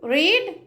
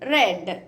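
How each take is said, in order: First: The vowel is long, like 'reed'. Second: The vowel is short, like 'red'. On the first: It is the present form. "రీడ్ చదవడం" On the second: It is the past form. "వి two V three చదివేటప్పుడు ఎలా pronounce చేయాలి? రెడ్ రెడ్"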